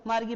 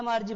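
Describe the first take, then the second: First: "मार्गी" में कठोर ग, गी; नाम को ग से "मार्गी" पढ़ें; ग वाला उच्चारण. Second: "मार्जी" में ग की जगह ज; नाम को ज से "मार्जी" पढ़ें; ज वाला उच्चारण. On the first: ("मार्गी" में ग की ध्वनि) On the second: ("मार्जी" में ज की ध्वनि) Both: Shown as a demonstration. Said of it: "इसको क्या पढ़ें".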